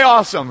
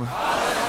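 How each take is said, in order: First: Said in the usual way. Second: "Awesome." whispered softly; whispered echo. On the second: Shown as a demonstration. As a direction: breathe "Awesome." back as a whisper. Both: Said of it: "Everyone say".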